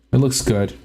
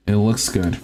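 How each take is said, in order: Both takes have the same delivery.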